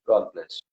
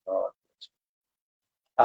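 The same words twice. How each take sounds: First: Said in the usual way. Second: A very slow, choked blessing; real emotion blessing the guest; overcome with emotion. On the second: Real, not acted. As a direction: let the feeling catch the words. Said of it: "I just got too emotional".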